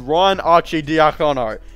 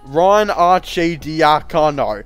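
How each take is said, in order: First: The name is said somewhat faster. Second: The name is said very slowly.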